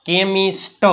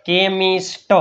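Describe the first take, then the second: No difference in how they are said.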